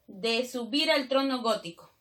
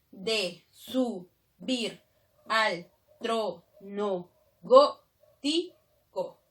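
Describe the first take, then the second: First: Said in the usual way. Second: Very slow, every syllable separated; deliberate scansion with pauses between syllables. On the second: Shown as a demonstration. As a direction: count out the verse syllable by syllable. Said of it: "Si yo separo nada más".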